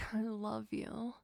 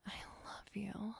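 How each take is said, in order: First: "I love you" spoken aloud with a lift on "I"; voiced I love you. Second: Soft unvoiced "I love you" breathed close; whispered I love you. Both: Repeated love declaration.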